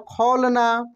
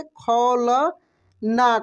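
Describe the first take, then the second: First: Said in the usual way. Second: खौलना stretched very slowly, the au held; drawn-out spelling-out. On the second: Shown as a demonstration. Teacher to pupils, drawing the word out slowly. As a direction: sound out खौलना syllable by syllable. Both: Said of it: "कैसे?".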